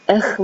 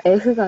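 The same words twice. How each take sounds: First: "에흐" with a rasp in the throat, like gurgling phlegm; "에흐" with a guttural French R; phlegmy French R. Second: Said in the usual way. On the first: Shown as a demonstration. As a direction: scrape the end of "에흐" as if clearing phlegm. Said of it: "약간 가래 끓는 소리처럼". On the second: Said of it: "에흐도 그냥 에흐가 아니라".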